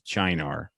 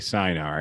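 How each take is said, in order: First: The word is said in an Italian style. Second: The word is said in an English style. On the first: "it's Italian, and that's how you would say it in Italian" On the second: "I would say Cynar"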